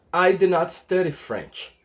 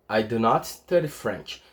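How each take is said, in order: First: Said in the usual way. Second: Slow, careful English model sentence; teacher's slow demonstration; slow model repeat. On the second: Shown as a demonstration. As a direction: say it slowly for students to copy. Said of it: "demo repeat".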